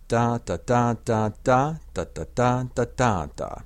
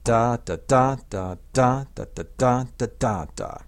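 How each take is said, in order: First: The syllables carry no strongly exaggerated beats. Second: Certain syllables are hit hard with exaggerated beats. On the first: "so all together it sounds like this" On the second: "I'll hit those ictuses really hard for you"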